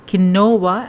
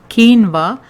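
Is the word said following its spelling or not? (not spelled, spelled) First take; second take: spelled; not spelled. First: It is said letter by letter as it looks. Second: It is said differently from how it looks. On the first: The speaker calls it wrong. "not quinoa as it is written" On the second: The speaker calls it right. "pronounced as quinoa"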